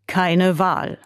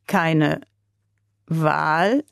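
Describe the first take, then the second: First: "Keine Wahl" as a settled statement, stress on "keine"; agree, understanding now; nodding agreement. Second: "Keine Wahl" slowly, rising into a question on "Wahl"; slow puzzled repeat. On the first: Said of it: "nickte der Russe". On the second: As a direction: repeat it, trying to grasp it. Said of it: "wiederholte der Russe langsam". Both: A narrator's reading.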